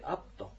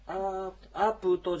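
First: The first vowel is kept short. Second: The first vowel is drawn out long. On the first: The speaker calls it right. "アプトというこういうアイヌ語のちょっと独特の発音" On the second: The speaker calls it wrong. "アープトじゃなくて"

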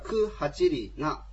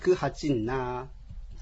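First: The middle has a separate 'ri' before 'na'. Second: The 'ri' merges into a long 'nn' sound. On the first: "本来であればクハチリな" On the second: "リとナが、ちょっとあのなまってですね、ハチンナーっていう表現で音が変わります"

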